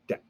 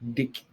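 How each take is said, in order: First: The vowel is an open 'e' as in deck. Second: The vowel is raised, sounding like 'dick'.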